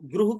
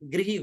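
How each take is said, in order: First: The vowel after r sounds like 'ru'. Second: The vowel after r sounds like 'ri'. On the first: This is how it is said in non-Hindi regions. "री री का उच्चारण रू की तरह होता है।" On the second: This is the standard Hindi pronunciation. "Hindi में इसका उच्चारण गृह होगा"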